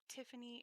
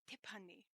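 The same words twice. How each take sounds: First: The name is said with an English T sound. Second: The name is said with a Korean T sound. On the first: "the example of Tiffany in English" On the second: "in Korean, my name is pronounced"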